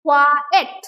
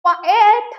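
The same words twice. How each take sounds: First: coed with both syllables weighted evenly and loudly; equal stress. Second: coed with the second syllable stretched long and loud; wrong stress demo. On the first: Teacher modelling the right way, coed stressed evenly on both syllables. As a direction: give both halves of coed the same firm stress. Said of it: "equal stress to both the syllables". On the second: Teacher showing how we don't say it, coed with stretched ending. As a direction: lean hard on the "-এট" of coed, drawing it out. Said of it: "coed তো বলি না". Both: Shown as a demonstration.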